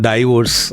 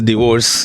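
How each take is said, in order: First: The first syllable sounds like 'dai'. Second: The first syllable sounds like 'di'. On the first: The speaker calls it wrong. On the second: The speaker calls it right.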